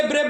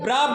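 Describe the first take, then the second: First: ब्रेव said with the English ay vowel; brave pronunciation. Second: ब्राव said with a clipped a sound and a hard b at the end; brav pronunciation. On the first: Teacher showing students the other common way, ब्रेव. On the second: Teacher giving her own way of saying ब्राव to students. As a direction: say ब्राव with a short open a, like brav. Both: Shown as a demonstration. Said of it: "कुछ लोग इसे ब्रेव बोलते हैं".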